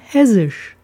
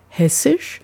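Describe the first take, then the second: First: The double s is a voiced buzz. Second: The double s is a voiceless hiss. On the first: This is how locals in the dialect say it. "sondern hessisch" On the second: This is the standard way to say it. "sagt man eben nicht hessisch"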